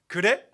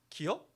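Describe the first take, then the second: First: It is said in the Seoul standard form. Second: It is said in the Chungcheong dialect form. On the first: "이제 고향 가야지 기어 아니에요. 이렇게 합니다" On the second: "저는 이렇게 말합니다"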